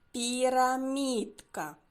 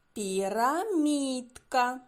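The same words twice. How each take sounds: First: Пірамідка again slowly with a falling end; slow articulation for children; slow clear repeat. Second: Пірамідка drawn out slowly, each sound clear; slow teacher articulation; slow clear word. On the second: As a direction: stretch Пірамідка so kids catch the і sounds. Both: Shown as a demonstration. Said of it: "Зловили?".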